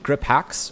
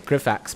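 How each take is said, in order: First: The name is said as two separate words. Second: The name is run together as one word. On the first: The speaker calls it right. "but it's actually Grip Hacks" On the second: The speaker calls it wrong. "we always say Grifax"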